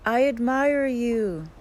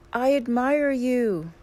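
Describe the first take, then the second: First: Mountain's echo, high, loud and slow; echoed shout. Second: High, loud, drawn-out call; scream to the mountain. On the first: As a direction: call it back in long drawn-out words. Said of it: "The voice answers". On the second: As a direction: shout it slowly to a far-off mountain. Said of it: "he screams to the mountain". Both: A narrator's reading.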